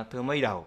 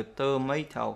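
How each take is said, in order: First: "tomato" with the last T softened to D; t thành d. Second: Said in the usual way. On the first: Shown as a demonstration. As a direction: say "tomato" as to-may-do. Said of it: "thì đọc là tomato". (đọc "tomato" thành tơ-mây-đâu) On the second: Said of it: "ví dụ là từ tomato".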